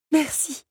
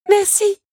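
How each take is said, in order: First: High but no longer shouted; heartfelt thanks. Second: High, loud grateful cry; shouted thanks. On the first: Belle's last thanks to both helpers, heartfelt. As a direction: let the thanks fall away tenderly. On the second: Belle thanks her helpers as she flees, shouting. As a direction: call your thanks out at full voice. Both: Acted.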